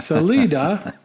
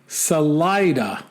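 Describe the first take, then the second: First: Salida said suh-LEE-duh; mistaken pronunciation. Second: Salida said suh-LIE-duh; corrected pronunciation. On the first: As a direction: stress Salida on a long 'lee'. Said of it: "is actually pronounced Salida". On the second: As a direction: stress Salida on 'lie'. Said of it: "is actually pronounced". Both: Shown as a demonstration.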